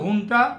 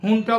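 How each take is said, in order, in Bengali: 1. শব্দটি H ধ্বনি দিয়ে শুরু হয়। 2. শব্দটি H ধ্বনি দিয়ে শুরু হয়।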